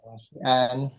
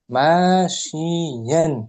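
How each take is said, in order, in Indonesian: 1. Vokal pertama pendek. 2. Vokal pertama panjang. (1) "Bukan masyian" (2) "Ma panjang"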